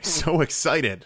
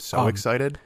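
First: It is said brightly, with lively excitement. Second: It is said flatly, with no excitement. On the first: The speaker calls it right. "Is that better?" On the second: The speaker calls it wrong. "You don't sound excited like at all"

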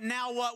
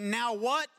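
First: It is said as an eager exclamation. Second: It is said as a questioning query.

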